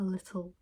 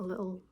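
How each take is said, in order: First: The T sound in the middle is pronounced. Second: The T sound in the middle is dropped. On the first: The speaker calls it right. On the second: The speaker calls it wrong.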